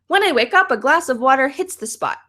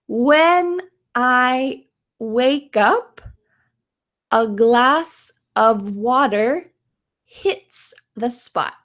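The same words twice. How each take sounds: First: The sentence is spoken very fast. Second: The sentence is spoken slowly and carefully. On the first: "Can you say it really fast?" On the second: "let's say this slowly, imitate my mouth"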